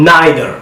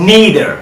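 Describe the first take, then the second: First: "neither" as "NYE-ther"; "eye" vowel in "neither"; British "nye" in "neither"; British pronunciation. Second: "neither" as "NEE-ther", higher pitched; long "ee" in "neither"; American "nee" in "neither"; American pronunciation. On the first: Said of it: "কীভাবে ব্রিটিশে sound করে". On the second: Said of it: "কীভাবে আমেরিকানরা sound করে". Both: Shown as a demonstration.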